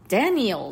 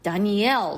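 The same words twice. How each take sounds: First: The stress is on the first syllable. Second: The stress is on the last syllable. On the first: This is the male name. "男性の場合はダニエルって最初のダの方にアクセントがあるんですけれども" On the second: This is the female name. "女性の場合はダニエルって言ってこう後ろの方にアクセントがあるんですよ"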